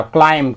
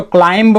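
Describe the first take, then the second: First: क्लाइंब ending on M, B silent; silent B in climb. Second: क्लाइंब with a sounded final B; B sounded in climb. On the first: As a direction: say क्लाइंब as 'klaim'. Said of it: "बी जो है silence हो जाता है". (क्लाइंब में आख़िरी ब silent) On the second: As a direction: say क्लाइंब as 'klaimb', voicing the B. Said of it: "इसको क्लाइंब मत पढ़िएगा". (क्लाइंब के अंत में ब का उच्चारण) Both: Shown as a demonstration.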